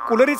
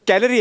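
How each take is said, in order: First: The first vowel is an 'oo' sound. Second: The first vowel is an 'a' sound. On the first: The speaker calls it wrong. "तुम्ही पुन्हा पुन्हा कुलरीच म्हणताय" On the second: The speaker calls it right. "कॅलरी आहे ते"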